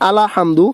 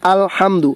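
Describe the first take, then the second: First: An extra vowel is inserted before hamdu. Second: The word is said without an extra vowel. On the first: The speaker calls it wrong. "আলা হামদু বললে ভুল হবে" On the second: The speaker calls it right. "এখানে বলবে আলহামদু"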